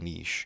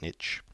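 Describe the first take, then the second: First: It has a long ee vowel: neesh. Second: It has a short i vowel: nitch. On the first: "this is more the British way of saying this word" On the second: "Sounds like N I T C H"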